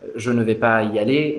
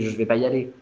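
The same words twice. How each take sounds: First: Every syllable is pronounced in full. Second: Some syllables are dropped and run together. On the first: "Au lieu de dire" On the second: "on a fait ce qu'on appelle des élisions"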